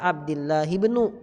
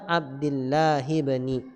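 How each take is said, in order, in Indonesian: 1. Kata kedua berakhir dengan vokal 'u'. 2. Kata kedua berakhir dengan vokal 'i'. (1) "Gak boleh dibaca Abdillahi ibnu" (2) "maka dibaca Abdillahi ibni"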